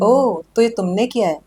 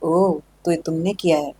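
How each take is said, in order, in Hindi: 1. यह सामान्य पिच पर बोला गया है। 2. यह सबसे नीची, भारी आवाज़ में बोला गया है। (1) "इट्स लाइक एक नॉर्मल लाइन" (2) "नीचे लेके जाओ कुछ स्टेप्स ... थोड़ी सी भारी आवाज भी होगी"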